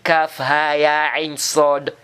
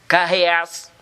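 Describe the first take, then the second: First: Each letter name is said separately. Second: The letters are run together into one word. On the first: The speaker calls it right. "on dit kaf, ha, ya, ain, sod" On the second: The speaker calls it wrong. "On va pas dire par exemple, kaheas. C'est pas comme ça qu'on lit ça"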